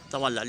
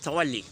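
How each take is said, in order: First: The word ends with an 'ah' sound. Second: The word ends with an 'ee' sound. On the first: This is the subcontinent pronunciation. "in Indo-Pak uh, we usually pronounce it as tawalla" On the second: This is the Arabic pronunciation. "its accent is tawalli"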